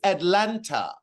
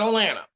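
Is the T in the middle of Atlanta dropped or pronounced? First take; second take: pronounced; dropped. First: The middle T sound is clearly pronounced. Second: The middle T sound is dropped entirely. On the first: The speaker calls it right. "It is Atlanta" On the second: The speaker calls it wrong. "he can't even put the tongue at the roof of his mouth to pronounce his T's"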